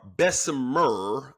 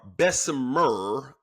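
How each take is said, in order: First: The middle s sound is clearly pronounced. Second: The middle s sound is clearly pronounced.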